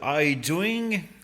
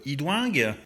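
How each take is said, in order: First: The name is said with an English accent. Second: The name is said with a French accent. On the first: "à l'anglaise" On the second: "à la française"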